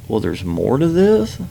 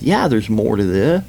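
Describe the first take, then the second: First: "Well, there's more to this?" drawn out with a rising question; slow, incredulous question on "there's more to this?". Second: Insistent "Yeah, there's more to this"; insistent answer. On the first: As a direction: ask "more to this?" slowly, climbing at the end. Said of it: "I was like". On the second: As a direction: answer back with emphasis on "Yeah". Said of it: "And she said". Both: Retold or imitated.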